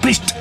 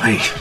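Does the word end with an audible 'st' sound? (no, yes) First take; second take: yes; no. First: The word ends with a clear final 'st' sound. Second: The word ends on the vowel, without final consonants. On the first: The speaker calls it right. "Ahí está con la T" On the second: The speaker calls it wrong. "diciendo Pri solo"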